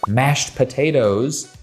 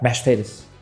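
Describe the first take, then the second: First: The words are said clearly and separately. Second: The words are run together in a southern accent. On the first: "instead of mashed potatoes" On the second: "things tend to run together a little bit"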